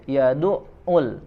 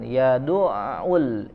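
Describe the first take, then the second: First: The sound is held and cut off. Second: The sound flows on without a break. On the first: The speaker calls it wrong. "tidak tertahan, bukan ya du'u" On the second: The speaker calls it right. "tapi dialirkan"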